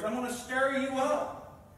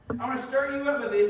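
First: Said in the usual way. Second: Louder preaching. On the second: Acted. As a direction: repeat it louder and faster, driving. Preacher repeats line, builds.

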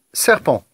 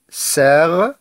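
First: Said in the usual way. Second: "serpent" as ser, long pause, pent; split into syllables. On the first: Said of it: "on va découper les mots". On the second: Shown as a demonstration. Teacher cutting words for pupils, "serpent" syllable by syllable. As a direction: draw out "ser", wait, then finish "serpent". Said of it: "découper les mots en syllabes".

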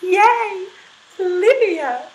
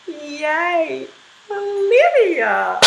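First: "Yay, Olivia!" started smoothly and gently, high; smooth onset. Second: Smooth onset. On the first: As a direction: glide into the voice with no attack. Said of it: "Our smooth". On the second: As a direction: glide gently into the voice. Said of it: "with a smooth reply". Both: Shown as a demonstration.

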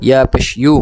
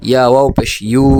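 First: Said in the usual way. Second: Long, held ইউ at the end; elongated vowel. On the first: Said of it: "এটা স্বাভাবিক উচ্চারণ হরকতের". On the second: Shown as a demonstration. Teacher repeating ya for students, ইউ held long. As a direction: stretch out the closing ইউ. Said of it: "মদের সাথে টেনে উচ্চারণ করেন".

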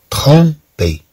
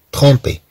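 First: Slow trompé, split in two; syllable-by-syllable trompé. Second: Said in the usual way. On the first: Shown as a demonstration. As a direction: separate "trom" from "pé". Teacher breaks word into syllables. (نطق trompé ببطء مقطعًا مقطعًا)

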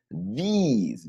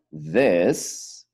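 First: "these" with a long, high, sharp ee. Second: "This" with a short vowel, almost like an E. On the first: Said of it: "bien, bien agudito". ("these" agudito y más largo) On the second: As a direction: say "This" short, close to "dés". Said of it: "casi, casi como que si fuera una E". ("This" corto, casi como una E) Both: Shown as a demonstration.

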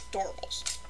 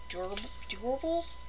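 First: Trying "Adorables" with an or sound, as in "DOR-uh-bulls"; soft "Adorables", first syllable like "door"; unsure pronunciation. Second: Trying "Adorables" with an oo sound, as in "Doo-rables"; soft, questioning "Adorables", first vowel turned to oo; unsure pronunciation. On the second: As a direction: say "Adorables" tentatively as "DOO-ruh-bulls", softly. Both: Shown as a demonstration. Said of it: "How do you say it?".

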